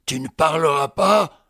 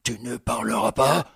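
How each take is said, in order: First: Plus fort, menaçant, à bout de patience; répète la question en haussant le ton; exaspéré. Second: Said in the usual way. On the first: Acted. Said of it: "Exaspéré". (question répétée, exaspérée)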